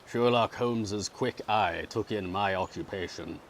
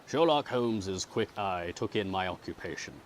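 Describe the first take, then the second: The two takes are said the same way.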